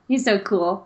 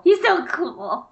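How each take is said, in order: First: Said in the usual way. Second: High, slow swooning gush; dreamy mock swoon on "He's so cool"; gushing fangirl. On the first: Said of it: "He's one of my favorite Jedi". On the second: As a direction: swoon over the word cool.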